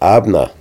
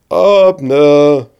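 First: Said in the usual way. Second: Higher, louder call across the valley; shouting. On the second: A narrator's reading. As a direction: yell his name with all you have. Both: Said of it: "brüllt David so laut er kann".

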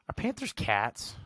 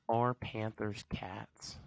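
First: Said in the usual way. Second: Slow, breathy whispered question. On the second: Pretend. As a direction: whisper it like a secret.

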